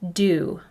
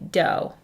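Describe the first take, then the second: First: The vowel sounds like 'ooh'. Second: The vowel sounds like 'oh'. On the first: The speaker calls it right. "The O says ooh" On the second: The speaker calls it wrong. "it seems this word should be dough, but it's not"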